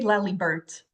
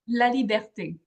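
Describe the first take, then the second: First: The final vowel sound is left off. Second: The final vowel sound is clearly pronounced. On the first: The speaker calls it wrong. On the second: The speaker calls it right.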